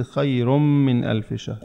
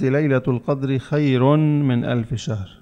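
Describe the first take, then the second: First: Slow, خير من merged as "khayrum-min"; doubled meem. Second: Slow, with خير ending in a clear n before من; unmerged tanween. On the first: Teacher explaining idgham, n of خير swallowed into a held m. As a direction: lean on a long doubled m between خير and من. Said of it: "وإنما نلفظ الميم مشددة". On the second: Teacher repeats how the student read it, sounding the n in خير. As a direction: say خير as "khayron", keeping the n apart from من. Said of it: "قلت أنت". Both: Shown as a demonstration.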